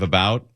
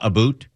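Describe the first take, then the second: First: It is said with an American accent. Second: It is said with a Canadian accent.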